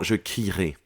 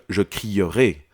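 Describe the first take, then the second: First: The e after cri is not pronounced. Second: The e after cri is clearly pronounced. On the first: "On n'entend pas ce e" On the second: "On va pas dire"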